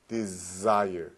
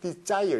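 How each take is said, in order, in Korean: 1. 윙 하는 z 소리로 시작해요. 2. 한국어 j 소리로 시작해요. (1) "우리나라 사람들이 이렇게 발음합니다" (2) "설마 desire 이런 사람 있어요?"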